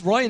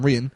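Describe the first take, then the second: First: The name is said the English way. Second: The name is said the Irish way. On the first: This is how a British person would say it. "it's Ryan if you're a tan" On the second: This is the name's Irish form. "the Irish pronunciation? I assume so"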